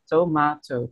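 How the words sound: It is said in a British accent. "Sementara kalau di British"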